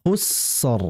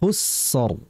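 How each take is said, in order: Both takes have the same delivery.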